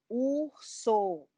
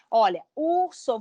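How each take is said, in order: First: "Urso" split into syllables for clapping, soft; syllables clapped. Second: Said in the usual way. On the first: Shown as a demonstration. ("Urso" separado em sílabas, com suavidade) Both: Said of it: "Vamos bater palma?".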